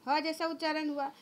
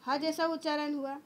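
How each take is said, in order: Both takes have the same delivery.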